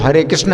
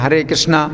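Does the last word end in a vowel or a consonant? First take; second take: consonant; vowel. First: The last word ends with a consonant. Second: The last word ends with a long vowel. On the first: This is the proper form. "वैसे तो हरे कृष्ण है" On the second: This is how people commonly say it. "हम लोग बोलते हैं"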